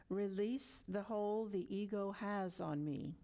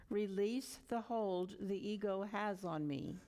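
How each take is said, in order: Both takes have the same delivery.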